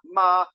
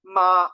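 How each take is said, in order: Both takes have the same delivery.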